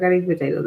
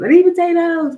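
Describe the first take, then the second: First: Said in the usual way. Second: Mock desperate cry. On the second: Craving quote repeated louder.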